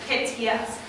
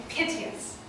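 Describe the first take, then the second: First: Piteous said in three full syllables, PIT-ee-us; piteous as PIT-ee-us, three even beats. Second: Piteous squeezed into two beats, PIT-yus; piteous with the last two syllables merged into one beat; Shakespeare's meter. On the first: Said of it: "we say with three syllables". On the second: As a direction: say piteous as PIT-yus to fit the iambic line. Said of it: "give the last two syllables one beat". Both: Shown as a demonstration.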